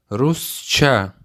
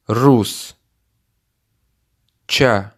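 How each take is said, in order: First: Said in the usual way. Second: Рус, pause, Ча, each part on its own; word split into syllables. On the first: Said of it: "Listen and repeat". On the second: Shown as a demonstration. Teacher splits Русча for the learner, syllable by syllable. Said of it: "Repeat part by part".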